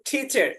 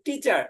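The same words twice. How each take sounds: First: The first t sound has a puff of breath. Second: The first t sound is plain, without a breath. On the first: "ট এবং ঠ এর মাঝামাঝি" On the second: "যেরকম আমরা পড়েছি"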